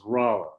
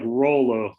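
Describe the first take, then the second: First: The name is pronounced the way locals say it. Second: The name is pronounced the way it is spelled. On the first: This is how residents say the name. The speaker calls it right. "if you live there, you would be pronouncing it as Rolla" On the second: This is how an outsider reads the name. The speaker calls it wrong. "It looks like Rolla when you see it"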